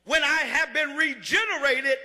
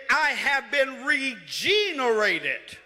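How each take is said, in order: First: Said in the usual way. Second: "regenerated" stretched slowly as re-GENE-erated; stress on GENE in regenerated. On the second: Shown as a demonstration. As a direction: lean long and hard on "gene" inside "regenerated". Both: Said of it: "if I put emphasis on one part".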